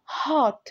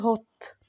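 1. الصوت ده 'ah' مفتوح. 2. الصوت ده 'oh' مدوّر.

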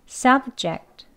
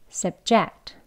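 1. 강세는 첫 번째 음절에 있습니다. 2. 강세는 두 번째 음절에 있습니다. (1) "명사와 형용사의 강세는 똑같아요. 앞에 이름절에 있습니다" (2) "동사로 쓰일 때는 강세가 이음절에 있어요"

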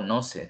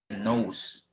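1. Suena como la frase en español "no sé". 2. Se dice con la vocal y la terminación del inglés. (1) "No lo digo no sé" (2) "sino que nose"

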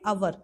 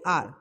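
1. यह शब्द दो अक्षरों में बोला जाता है। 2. यह शब्द एक अक्षर में बोला जाता है। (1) "अभी तक हम इसको क्या बोलते थे, आवर बोलते थे" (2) "बट इसकी करेक्ट प्रोनाउंसिएशन क्या होती है"

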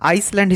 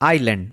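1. শব্দটি s উচ্চারণ সহ বলা হয়। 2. শব্দটি s উচ্চারণ ছাড়া বলা হয়। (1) "অনেকে আইসল্যান্ড হিসেবে উচ্চারণ করেন, যেটি ভুল উচ্চারণ।" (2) "আইল্যান্ডের ক্ষেত্রে এস সাইলেন্ট থাকে।"

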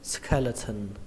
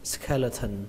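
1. Phụ âm ở giữa là âm t bật hơi. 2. Phụ âm ở giữa là âm t bật hơi.

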